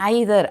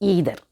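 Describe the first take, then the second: First: The first vowel sounds like 'eye'. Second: The first vowel sounds like 'ee'.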